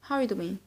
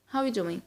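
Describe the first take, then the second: Both takes have the same delivery.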